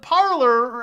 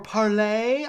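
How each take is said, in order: First: The name ends with an 'er' sound. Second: The name ends with an 'ay' sound. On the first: This is the common everyday pronunciation. "everyone just calls it Parlor" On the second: This is the official pronunciation. "I think they say is the official pronunciation"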